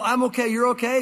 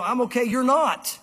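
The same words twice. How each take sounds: First: Breezy singsong I'm okay, you're okay; quoting the slogan lightly, stress on "you're"; "you're okay" lifted as a carefree catchphrase; old slogan. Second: Firm correction, "not" hit and dropped; God's correction. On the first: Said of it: "that old". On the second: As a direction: stress on "not": "you're not" punched and falling. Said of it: "God would say". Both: Retold or imitated.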